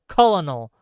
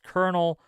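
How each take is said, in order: First: It is said the way it is spelled. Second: It is said in the usual, standard way.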